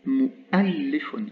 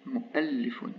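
First: Mu'allifun stretched out very slowly with a long held a; syllable by syllable, Mu'allifun; slow demo. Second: Said in the usual way. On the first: Shown as a demonstration. Teacher drawing out the word for students, very slowly. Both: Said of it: "ça se prononce A".

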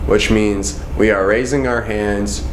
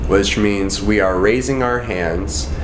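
The two takes are said the same way.

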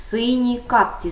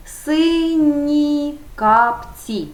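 First: Said in the usual way. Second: Very slow, higher, carefully drawn out; slow model answer. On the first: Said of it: "І так, називний". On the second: Shown as a demonstration. Teacher modelling the phrase for pupils, slowly drawn out. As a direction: stretch every syllable for the class. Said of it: "основа на м'який приголосний".

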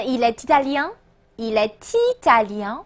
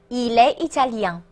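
First: Il est italien with est's t linked onto italien; il est italien said as "eel-ay tee-ta-lyan"; with liaison. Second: Il est italien with no t before italien; il est italien said as "eel-ay ee-ta-lyan"; without liaison. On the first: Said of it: "那你会听到连读的情况". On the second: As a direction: leave the t of est silent in il est italien. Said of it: "可连可不连". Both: Shown as a demonstration.

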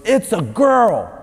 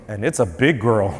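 First: High, drawn-out mock announcement; imitated doctor calling out slowly; loud doctor. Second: Dropped, low imitated doctor voice; low-voiced mock announcement; changed doctor voice. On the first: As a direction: proclaim it like a triumphant doctor. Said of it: "the doctor says real loud". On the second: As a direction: drop the pitch as the doctor. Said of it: "his voice changes and he goes".

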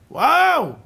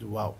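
First: High, loud, drawn-out WOW; exclaimed wow. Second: Said in the usual way. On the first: Shown as a demonstration. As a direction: cry out in amazement, voice soaring. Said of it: "לצעוק!". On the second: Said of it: "ולא להגיד".

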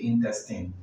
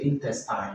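First: Intestine ending in a short "tin"; correct pronunciation. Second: Intestine ending in "tine", like time; wrong pronunciation. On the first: Teacher showing what you do say, intestine with short final i. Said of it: "you say intestine". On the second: Teacher showing what you don't say, intestine with long final i. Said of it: "So you don't say". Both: Shown as a demonstration.

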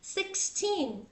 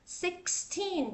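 No difference in how they are said.

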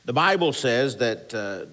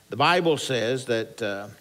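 No difference in how they are said.

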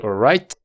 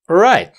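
First: "all right" with the T let go audibly; released final T. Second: "all right" with the T held back, loud and high; stopped final T. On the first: Teacher showing what to avoid, final T released. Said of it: "No vas a decir". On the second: Teacher showing the correct ending, sound braked at T. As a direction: cut "right" off before the T releases. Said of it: "vas a frenar el sonido". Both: Shown as a demonstration.

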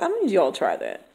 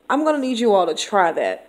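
First: Softer, firm teacher-to-class delivery; a quiet, firm word to the class. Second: Said in the usual way. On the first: Shown as a demonstration. Teacher addressing her students, quiet and firm. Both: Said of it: "I talk to them like".

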